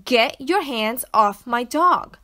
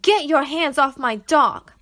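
First: Repeated demand. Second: Loud, slow furious shout. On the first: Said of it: "I repeated". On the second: Girl shouting at the doctor to free her dog, furious. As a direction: yell it at the man holding the dog. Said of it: "I shouted". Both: Acted.

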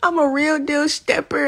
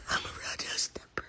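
First: Said in the usual way. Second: Breathy hushed whisper of the lyric. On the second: Real, not acted. Fan repeating her idol's lyric, whispered. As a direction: whisper it to yourself.

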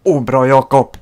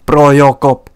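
First: Said in the usual way. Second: Louder shouted cheer; loud praise. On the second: Real, not acted. Praising the keeper twice.

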